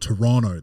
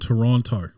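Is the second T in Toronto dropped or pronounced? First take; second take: dropped; pronounced. First: The second T is dropped. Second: The second T is clearly pronounced.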